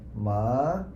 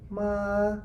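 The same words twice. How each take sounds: First: The pitch rises from middle to high. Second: The pitch stays high and level. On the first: "the rising one will be like ma" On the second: "the high level tones is like ma"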